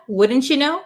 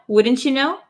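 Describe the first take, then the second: No difference in how they are said.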